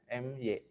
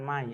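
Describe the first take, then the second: First: It is said as two separate letters. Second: It is said as one word, 'my'. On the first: The speaker calls it right. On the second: The speaker calls it wrong.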